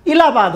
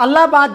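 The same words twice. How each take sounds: First: इलाहाबाद said as "Ilahabad", with an opening I; corrupted name form. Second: इलाहाबाद said as "Allahabad", with an opening A; original name form. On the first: Teacher answering what the name became, इलाहाबाद pronounced Ilahabad. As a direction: open इलाहाबाद on a short I, not A. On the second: Teacher citing the older form before its corruption, इलाहाबाद pronounced Allahabad. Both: Shown as a demonstration. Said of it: "अपभ्रंश होते होते क्या हो गया था".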